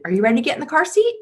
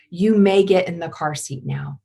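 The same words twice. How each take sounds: First: Much higher, fast, rising question; sweet asking mom. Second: Calm command. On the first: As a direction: rush it up high as a sweet question. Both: Shown as a demonstration. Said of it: "It's very different than".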